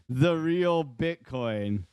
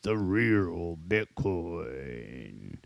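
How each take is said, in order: First: It is said in an ordinary speaking voice. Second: It is said in a booming announcer voice.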